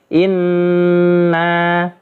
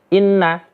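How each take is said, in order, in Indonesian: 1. Huruf n ditahan lama dengan dengung sengau. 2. Huruf n dibaca cepat, tanpa dengung yang ditahan. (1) "Harus dibaca ditahan satu alif atau dua harokat" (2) "Tidak boleh dibaca cepat. ... Salah ya"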